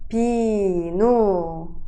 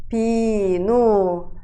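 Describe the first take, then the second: The two takes are said the same way.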